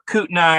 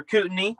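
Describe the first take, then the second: First: "Kootenai" ending like "eye"; alternative pronunciation. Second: "Kootenai" ending like "ee"; alternative pronunciation. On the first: Camper names the river he drove to, first pronunciation, KOOT-nigh. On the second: Camper unsure how to say the river, second pronunciation, KOOT-nee. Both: Shown as a demonstration. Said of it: "however the fuck you say it".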